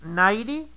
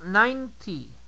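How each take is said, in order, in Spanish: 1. La segunda n no se pronuncia. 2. La segunda n sí se pronuncia. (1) "En ninety no pronuncias la segunda n" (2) "sí pronuncias la segunda n y la terminación es con ti"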